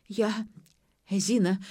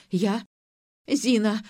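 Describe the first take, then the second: First: Moaning. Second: Louder, rising moan on Зина!. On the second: Mother-in-law confessing to Ira, moaning Зина! louder. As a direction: cry out Зина! with the moan growing. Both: A narrator's reading. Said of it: "стонала дама".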